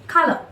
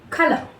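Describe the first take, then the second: The two takes are said the same way.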